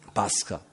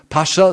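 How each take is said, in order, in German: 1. Pascha wird hebräisch ausgesprochen. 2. Pascha wird wie der Titel des Herrschers ausgesprochen. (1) "hebräisch ausgesprochen, ist das Pascha" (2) "Nicht Pascha, sondern Pascha ist ein orientalischer Herrscher"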